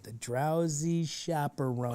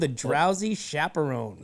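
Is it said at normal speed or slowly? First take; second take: slowly; normal speed. First: It is said slowly and drawn out. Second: It is said at normal speed.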